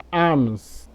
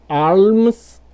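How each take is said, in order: First: Alms said as "ams", slowly, no L; silent L. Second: Alms slowly, with a long audible L; sounded L. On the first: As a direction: drop the L from alms. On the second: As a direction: stretch alms and voice the L. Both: Shown as a demonstration. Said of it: "pode pronunciar das duas formas".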